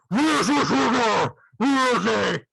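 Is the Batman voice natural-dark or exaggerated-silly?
exaggerated-silly. It is said in an overdone, silly growl.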